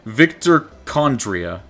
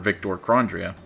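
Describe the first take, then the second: First: No R sound follows the first consonant. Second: An R sound follows the first consonant. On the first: The speaker calls it right. "There we go" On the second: The speaker calls it wrong. "has that never had an R in that?"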